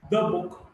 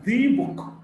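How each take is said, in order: First: The word 'the' is short and unstressed. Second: The word 'the' is stressed with a full vowel. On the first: "It's pronounced the before consonant sounds" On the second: "If we stress, then of course we pronounce the"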